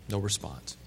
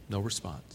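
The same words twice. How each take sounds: Both takes have the same delivery.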